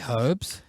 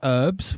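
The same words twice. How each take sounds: First: The word starts with a pronounced H. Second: The word starts with a silent H. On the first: This is the British way of saying it. "We say herbs. There's a fucking H in it" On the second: This is the American way of saying it. "Americans say herbs"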